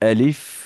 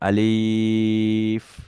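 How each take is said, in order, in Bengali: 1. শব্দটি ছোট ও দ্রুত করে বলা হয়েছে। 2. শব্দটি লম্বা টানে বলা হয়েছে। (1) "খুব তাড়াতাড়ি করে বলতে হবে" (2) "এটা ভুল হয়েছে, কেন এটা লম্বা টান হয়ে গিয়েছে"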